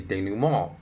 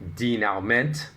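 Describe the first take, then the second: First: The word is given its French-style pronunciation. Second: The word is given an anglicized English pronunciation. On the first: This is the pronunciation people actually use. The speaker calls it right. "they say denouement" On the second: This is a pronunciation nobody uses. The speaker calls it wrong. "people don't say denouement"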